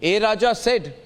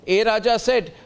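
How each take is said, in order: Both takes have the same delivery.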